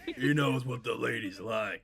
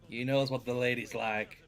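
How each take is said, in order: First: The voice is deeper and more masculine. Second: The voice is lighter and less masculine.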